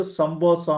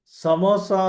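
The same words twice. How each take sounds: First: "సంబోసా" with an added b after the m. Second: Said in the usual way. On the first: Shown as a demonstration. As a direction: say "సంబోసా", turning m into mb. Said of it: "బదులు సంబోసా అంటారు". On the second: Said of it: "అంటం బదులు సంబోసా అంటారు".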